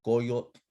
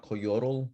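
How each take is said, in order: First: Coyote as CO-yotl, final voiceless tl; native tl ending. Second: Coyotl as co-YO-rul; wrong anglicized ending. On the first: Teacher shows class T L words, native ending. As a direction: say coyote in two beats, no final vowel. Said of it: "words that end in T L". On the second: Teacher shows class the mistake, anglicized ending. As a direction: add a vowel before the L of coyotl. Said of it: "it's not coyotl". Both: Shown as a demonstration.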